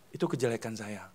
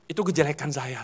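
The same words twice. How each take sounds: First: Softer, lower "Itu kejelekan saya" dropped to near murmur; quiet repeat. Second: Said in the usual way. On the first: Shown as a demonstration. Preacher repeating his own fault, softer. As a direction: say the admission again to yourself.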